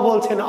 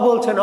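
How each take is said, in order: Both takes have the same delivery.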